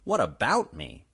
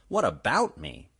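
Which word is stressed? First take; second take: about; about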